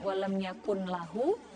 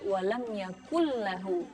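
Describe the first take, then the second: First: The n is pronounced clearly before the l. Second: The n merges into a doubled l sound. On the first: The speaker calls it wrong. "Jadi bukan walam yakun lahu" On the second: The speaker calls it right. "tapi walam yakullahu"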